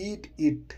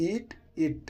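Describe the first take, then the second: First: Said in the usual way. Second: Eat it lifted clearly higher; higher demo of eat it; higher model repeat. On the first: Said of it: "teacher models the phrase". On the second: Shown as a demonstration. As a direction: say eat it again up high. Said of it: "repeat with a changed voice".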